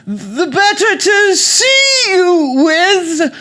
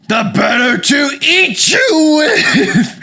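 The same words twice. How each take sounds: First: Very high, slow, loud granny falsetto; fake British grandmother. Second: Loud, high, roaring wolf; wolf revealed. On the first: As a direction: coo it loudly as a disguised British granny. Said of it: "the voice from under the covers said". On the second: Acted. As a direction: drop the granny act and pounce with a drawn-out shout. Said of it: "that's when the voice changed".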